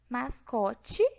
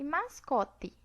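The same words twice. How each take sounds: First: The final t sounds like ch. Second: The final t is a plain t. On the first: "Aqui nós temos a africada, né, o tchan" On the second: "e aqui a oclusiva, o tã"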